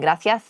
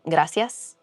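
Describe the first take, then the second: First: The c is pronounced like th, Castilian style. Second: The c is pronounced like s, Latin American style. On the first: This is how people from Spain say it. "they're not Spaniard from Spain, with, with and they say they don't say gracias" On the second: This is how Latin Americans say it. "instead of gracias"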